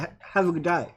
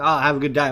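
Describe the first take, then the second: First: It sounds warm and sincere. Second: It sounds offhand and dismissive.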